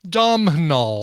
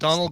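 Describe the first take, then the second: First: Every letter is sounded, as 'Dom-nahal'. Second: It sounds just like the name 'Donald'. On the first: The speaker calls it wrong. "trying to pronounce every single letter in his name" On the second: The speaker calls it right. "pronounced the same as Donald"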